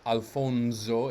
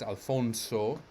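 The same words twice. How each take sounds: First: The s is voiced, sounding like z. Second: The s is unvoiced, sounding like s. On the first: The speaker calls it wrong. "His name is not Alfonso" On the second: The speaker calls it right. "it's Alfonso"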